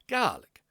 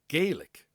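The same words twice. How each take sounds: First: It uses the non-Canadian pronunciation of the word. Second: It uses the Canadian pronunciation of the word.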